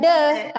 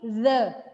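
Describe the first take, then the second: First: It begins with a hard d sound. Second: It begins with a breathy th sound. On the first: The speaker calls it wrong. "bukan the" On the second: The speaker calls it right. "tapi the. Ada udara"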